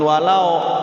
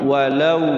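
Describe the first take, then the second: First: The vowel after w sounds like o. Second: The vowel after w sounds like u. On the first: The speaker calls it wrong. "jangan pakai oh walau" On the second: The speaker calls it right. "tapi u walau"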